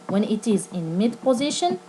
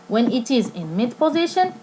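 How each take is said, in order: The two takes are said the same way.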